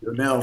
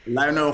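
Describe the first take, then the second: First: "Lionel" with a French "lyo" opening, no "lie" sound; Francophone pronunciation. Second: "Lionel" opening like the word "lion"; Anglophone pronunciation. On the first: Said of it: "for the Francophones". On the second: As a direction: say "Lionel" the English way, LIE-oh-nel. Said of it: "It's Lionel for the Anglophones". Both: Shown as a demonstration.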